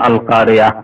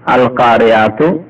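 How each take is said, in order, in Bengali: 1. শব্দটি ছোট করে শেষ হয়, 'তু' অংশ ছাড়া। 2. শব্দটি পূর্ণ 'তু' দিয়ে শেষ হয়। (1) "যখন থামবেন বলুন আল কারিয়া" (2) "না থামলে আল কারিয়াতু"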